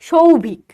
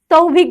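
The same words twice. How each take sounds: First: It begins with a palatal sh sound. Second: It begins with a thin, dental s sound. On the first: "আমাদের কি আসে? ... তাহলে একটা হলো তালবস্য" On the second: "সৌভিক বলতে হবে তাহলে আমাকে"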